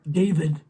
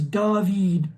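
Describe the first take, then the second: First: The name is pronounced the English way. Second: The name is pronounced the Hungarian way. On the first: The speaker calls it wrong. "not David" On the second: The speaker calls it right. "The last name is David"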